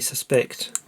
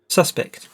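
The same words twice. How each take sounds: First: The stress falls on the second syllable. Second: The stress falls on the first syllable. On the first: The speaker calls it wrong. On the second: The speaker calls it right.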